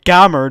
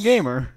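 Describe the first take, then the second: First: The first vowel is short, as in 'gap'. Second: The first vowel is long, as in 'game'. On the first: The speaker calls it wrong. "you don't pronounce it gammer" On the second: The speaker calls it right. "you pronounce it fucking gamer"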